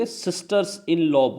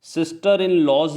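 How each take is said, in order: First: Sisters said slowly with the s on the first word; slow, careful sisters in law; stress on sisters. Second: Said in the usual way. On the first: Shown as a demonstration. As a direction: lean on sisters, keep in law light. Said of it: "sisters in law बोलेंगे". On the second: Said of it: "नहीं बोलेंगे".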